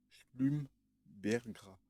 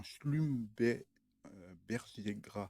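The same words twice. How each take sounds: First: Very slow, drawn-out "Schlumbergras" said as one word; careful retry. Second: Slow, broken "Schlumbe-, euh, berger gras" with a pause mid-name; halting first try. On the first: Vlogger apologizes, then slowly retries the plant name. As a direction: stretch out "Schlumbergras" syllable by syllable. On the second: Vlogger reading a plant label aloud, slow halting try. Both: Real, not acted. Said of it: "désolé pour la prononciation".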